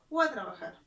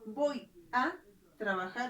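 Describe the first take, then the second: First: The words 'voy a' merge into 'gua'. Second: The words 'voy a' are said in full. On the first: "el término gua" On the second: "En vez de la palabra voy a trabajar"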